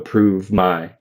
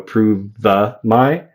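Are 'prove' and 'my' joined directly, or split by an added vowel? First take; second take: joined directly; added vowel. First: The v links straight into the next word. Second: An extra vowel is added between the two words. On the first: The speaker calls it right. "I just go prove my, and I connect v my" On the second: The speaker calls it wrong. "I don't go prove the my"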